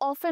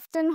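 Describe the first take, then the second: First: The word is said without a t sound. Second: The word is said with a t sound. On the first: This is the British pronunciation. "অফেন হচ্ছে British" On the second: This is the American pronunciation. "অফটেন হচ্ছে American"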